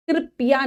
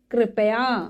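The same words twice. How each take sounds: First: "कृपया" said as krip-ya, middle vowel lost; mispronounced word. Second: "कृपया" in three syllables, kri-pa-yaa; correct pronunciation. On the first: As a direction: say "कृपया" wrongly as kripiya. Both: Shown as a demonstration. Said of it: "कृपया नहीं".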